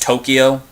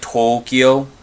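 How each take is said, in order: First: The O sounds are kept short. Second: The O sounds are drawn out long. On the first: The speaker calls it wrong. "instead of just Tokyo" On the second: The speaker calls it right. "drag out the O"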